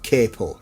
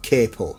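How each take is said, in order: First: It is said with an American pronunciation. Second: The same.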